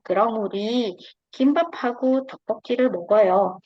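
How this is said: There is a pause after 'uri'. 'Uri' means 'we', the ones doing the eating. "kalau urinya terjeda berarti dia jadi subjek"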